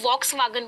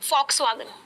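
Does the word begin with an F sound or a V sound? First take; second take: V sound; F sound. First: The word begins with a V sound. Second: The word begins with an F sound. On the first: The speaker calls it wrong. "बहुत सारे लोग उसे वॉक्सवैगन बोलते हैं" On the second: The speaker calls it right. "वो फा प्रोनाउंस होता है"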